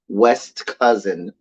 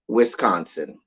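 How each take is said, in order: First: It is said like the two words 'West Cousin'. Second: It is said as one word, 'Wisconsin'.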